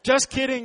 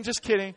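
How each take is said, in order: First: Loud, high teasing just kidding; playful joke. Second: Higher, louder playful repeat; softer follow-up joke. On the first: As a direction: tease the crowd loudly. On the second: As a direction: ease back off the joke. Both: Pretend. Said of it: "Just seeing if you guys were still awake".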